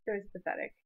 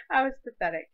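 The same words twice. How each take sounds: First: Said in the usual way. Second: "I was pathetic." said louder with weight on "I"; "I was pathetic." punched loud, then let go; emphatic. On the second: Shown as a demonstration.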